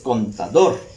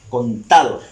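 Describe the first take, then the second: First: The stress is on the last syllable. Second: The stress is on the middle syllable. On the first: The speaker calls it right. "la palabra contador lleva su acento en la última sílaba" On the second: The speaker calls it wrong. "Si ubicamos el acento en la sílaba ta"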